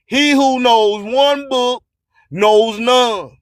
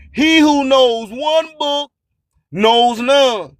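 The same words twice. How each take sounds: The two takes are said the same way.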